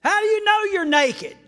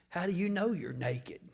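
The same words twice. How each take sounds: First: High loud incredulous ask; mock question. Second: Unvoiced whisper; whispered question. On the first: Preacher mocking God's question, high and loud. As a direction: ask it like it's obvious. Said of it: "What a dumb question". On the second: Preacher voicing God's question, whispered. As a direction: ask it under your breath. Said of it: "Listen to God's second question".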